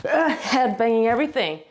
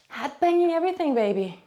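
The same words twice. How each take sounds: First: Said in the usual way. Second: Higher, quick pet talk to the cat in heat; cooing to the cat. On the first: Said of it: "repeats it to the cat". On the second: Real, not acted. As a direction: coo it at Tinky. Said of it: "said again to the cat".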